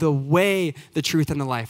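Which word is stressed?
way. The word way carries the main stress. He is the path to follow. "That's what he emphasized. He's the way"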